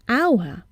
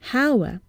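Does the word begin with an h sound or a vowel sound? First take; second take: vowel sound; h sound. First: The word begins with a vowel sound. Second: The word begins with an h sound. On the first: The speaker calls it right. "we hear a vowel sound at the beginning" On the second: The speaker calls it wrong. "and not hour"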